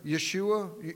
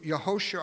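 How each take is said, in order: First: The name is said with three syllables. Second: The name is said with four syllables. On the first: The speaker calls it wrong. "I keep saying Yeshua" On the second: The speaker calls it right. "the proper pronunciation is Yehoshua"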